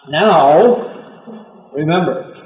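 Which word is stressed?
now. The stress falls on now, not remember.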